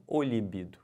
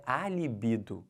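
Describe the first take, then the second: First: O libido with the article O leaned on; stress on O. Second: A libido with the article A leaned on; stress on A. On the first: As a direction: punch the wrong article in "o libido". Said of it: "e não". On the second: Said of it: "o certo é". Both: Shown as a demonstration.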